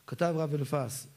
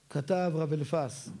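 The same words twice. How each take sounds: The two takes are said the same way.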